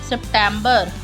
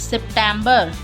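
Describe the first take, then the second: No difference in how they are said.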